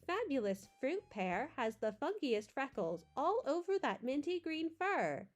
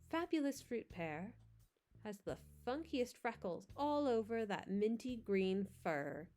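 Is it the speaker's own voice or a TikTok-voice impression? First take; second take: impression; own voice. First: It imitates the TikTok text-to-speech woman's voice. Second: It is read in the speaker's own voice.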